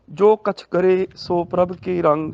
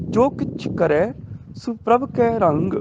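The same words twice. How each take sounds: First: ਕਛ with a, ਸੋ with o, ਕਰੇ and ਕੇ with e; common misreading. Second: ਕਿਛ with i, ਕਰੈ and ਕੈ with ai, ਸੋ as su; correct reading. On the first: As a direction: run it through with narrow e in ਕਰੇ and ਕੇ. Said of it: "ਗਲਤ ਹੋ ਗਿਆ". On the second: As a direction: open up ai in ਕਰੈ and ਕੈ. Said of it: "ਕੱਕੇ ਨੂੰ ਦੁਲਾਵਾਂ". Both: Shown as a demonstration.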